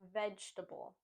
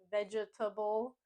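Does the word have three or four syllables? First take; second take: three; four. First: The word is said with three syllables. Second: The word is said with four syllables. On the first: The speaker calls it right. "we just want to say vegetable" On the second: The speaker calls it wrong. "making it four syllables"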